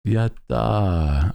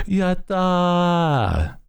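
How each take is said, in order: First: Higher cheerful yatta cheer; cute anime streamer. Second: Much higher, drawn-out yatta; cute anime streamer. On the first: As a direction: chirp it like an anime girl. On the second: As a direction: squeal it like an anime girl. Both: Pretend. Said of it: "I do like using a lot of anime slang".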